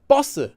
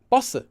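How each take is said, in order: First: The first consonant is a tense doubled sound. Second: The same.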